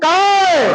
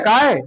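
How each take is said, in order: First: The word is said very loudly and forcefully. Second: The word is said louder, at normal strength. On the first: "ये और ज्यादा हो गया, इसमें जोर ज्यादा लग गया" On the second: "उससे कहीं ज्यादा हो"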